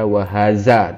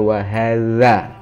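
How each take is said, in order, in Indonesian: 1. Huruf tengahnya bunyi z yang bergetar. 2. Huruf tengahnya bunyi dh yang lembut. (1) "Tidak boleh dibaca wahaza" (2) "tapi harus dibaca wahadza"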